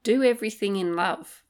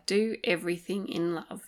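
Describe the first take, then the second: First: Said in the usual way. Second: Softer, tender repeat of "Do everything in love". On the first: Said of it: "how about this one?". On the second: Shown as a demonstration. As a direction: let "Do everything in love" settle gently. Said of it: "a beautiful phrase to live by".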